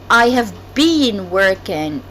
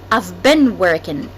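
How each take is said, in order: First: The word 'been' has a long 'ee' vowel. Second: The word 'been' has a short 'e' vowel. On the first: The speaker calls it wrong. "most of people say it's I have been working. So it's incorrect" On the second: The speaker calls it right. "The correct pronunciation is I've been working"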